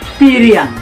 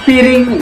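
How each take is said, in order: First: It ends with a Minang-style -iang. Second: It ends with a plain standard Indonesian -ing. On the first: The speaker calls it right. "lebih bagus sesuai dengan aksentuasi dan dialektika orang Minang" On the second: The speaker calls it wrong. "jadi piring"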